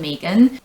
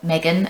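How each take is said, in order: First: The name is said the non-American way. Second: The name is said the American way.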